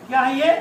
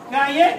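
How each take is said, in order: Both takes have the same delivery.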